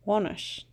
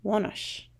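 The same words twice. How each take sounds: First: Wonish repeated evenly; second wonish, steady; repeated model word. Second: Wonish said slowly and clearly; model word. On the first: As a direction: echo wonish once more. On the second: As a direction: say wonish for the class to copy. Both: Shown as a demonstration. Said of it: "it's wonish".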